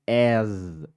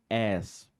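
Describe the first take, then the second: First: The word sounds like the English word as. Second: The word sounds like the English word ass. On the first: The intended word, meaning too. The speaker calls it right. "a pronúncia aqui, ó, é as" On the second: A rude word for buttocks. The speaker calls it wrong. "e não as, porque as é bumbum"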